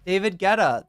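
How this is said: The name is said with an American pronunciation. "That's what this one says"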